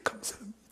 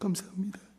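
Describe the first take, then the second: First: It sounds tearful and deeply moved. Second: The same.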